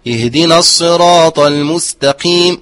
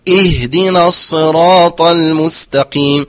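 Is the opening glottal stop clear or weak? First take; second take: weak; clear. First: The opening glottal stop is weakened or slurred. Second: The opening glottal stop is firm and clearly voiced. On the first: The speaker calls it wrong. "كثير من القراء اهدنا الصراط المستقيم وهو خطأ" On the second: The speaker calls it right. "فهي بعيدة المخرج، أؤكد ذلك"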